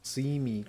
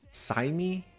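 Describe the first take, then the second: First: The first syllable sounds like 'see'. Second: The first syllable sounds like 'sigh'. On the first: The speaker calls it right. "his name is actually pronounced Simi Draw" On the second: The speaker calls it wrong. "I used to pronounce it as"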